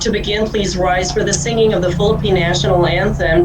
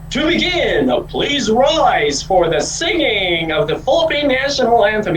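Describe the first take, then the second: First: It is said in a natural, conversational way. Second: It is said with heavy, exaggerated pitch modulation. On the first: The speaker calls it right. "you have to sound conversational" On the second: The speaker calls it wrong. "Huwag masyadong mag-modulate na"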